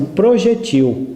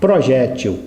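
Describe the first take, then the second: First: The stress is on the last syllable. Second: The stress is on the second-to-last syllable. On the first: "palavra oxítona, a sílaba forte na última sílaba" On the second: "palavra paroxítona"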